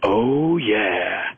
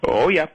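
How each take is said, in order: First: Brian Williams' smooth oh yeah. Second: "Oh yeah" tossed off higher and louder, not smooth at all; a quick, higher, louder "Oh yeah" with no croon to it; retelling the president's own go at the slow-jam ending, higher and louder. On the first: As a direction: croon "Oh yeah" like a smooth late-night news anchor. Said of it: "normally Brian Williams goes". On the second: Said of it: "but the president goes". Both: Retold or imitated.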